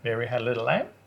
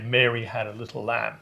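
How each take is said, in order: First: The voice rises at the end of the sentence. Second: The voice falls at the end of the sentence. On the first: It sounds like a question is being asked. "In Australia, you go, ... the rising inflection at the end" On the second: It is a plain statement. "So in English, you'd say"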